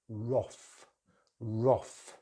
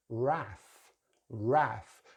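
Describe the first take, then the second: First: Wrath as roth; British short vowel. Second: Wrath as rath, vowel as in math; American pronunciation. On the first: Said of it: "British English use the short vowel". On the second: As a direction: open the a in wrath, American style. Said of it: "Americans use the long vowel sound". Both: Shown as a demonstration.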